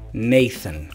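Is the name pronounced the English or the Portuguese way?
English. The name is said with English pronunciation. "Em inglês seria Nathan"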